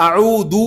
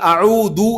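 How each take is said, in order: First: The middle consonant is a hard 'd' sound. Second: The middle consonant is a hard 'd' sound.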